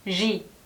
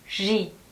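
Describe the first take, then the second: Both takes have the same delivery.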